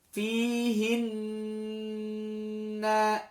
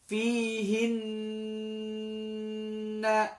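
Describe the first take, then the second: Both takes have the same delivery.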